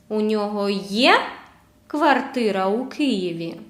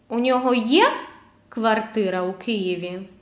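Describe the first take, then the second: Both takes have the same delivery.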